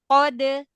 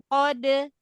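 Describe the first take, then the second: The two takes are said the same way.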